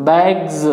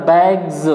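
Both takes have the same delivery.

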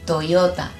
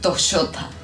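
First: The yo sound is not said the Argentine way. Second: The yo sound is said the Argentine way. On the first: The speaker calls it right. "No, Toyota" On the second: The speaker calls it wrong. "Los argentinos decimos Toyota"

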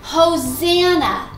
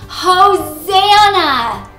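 First: It is said at a normal volume. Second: It is shouted as loudly as possible.

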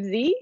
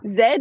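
First: It is pronounced 'zee', the American way. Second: It is pronounced 'zed', the New Zealand way.

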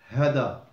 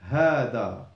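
First: The first vowel is short. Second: The first vowel is long. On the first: The speaker calls it wrong. "you don't say hada" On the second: The speaker calls it right. "you say hada"

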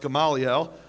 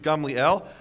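First: The name is said with four syllables. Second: The name is said with three syllables. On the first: The speaker calls it wrong. "you probably thought it was pronounced Gamaliel" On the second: The speaker calls it right. "the correct Hebrew pronunciation is Gamliel"

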